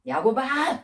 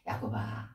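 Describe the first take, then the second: First: Raised, sharp call of a name, as if scolding; mock scolding call. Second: Low, soft call without reproach; gentle call. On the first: God hypothetically telling Jacob off, scolding call. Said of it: "그러면서 막 야단치시거나". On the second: Acted. God calling Jacob without rebuking him, gentle. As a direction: say the name quietly, no scolding in it. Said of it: "한마디씩도 안 하세요".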